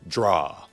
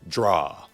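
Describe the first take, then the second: First: The name is said as one blended syllable. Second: The same.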